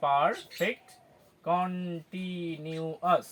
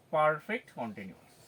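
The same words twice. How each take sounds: First: পারফেক্ট কন্টিনিউয়াস very slowly, as পার... ফেক্ট, কন-টি-নিউ-আস; syllable by syllable. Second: Said in the usual way. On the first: Shown as a demonstration. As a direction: separate and stretch every syllable of পারফেক্ট কন্টিনিউয়াস. (পার-ফেক্ট কন-টি-নিউ-আস, খুব ধীরে ভেঙে ভেঙে) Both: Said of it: "একইভাবে আমরা উচ্চারণ করব".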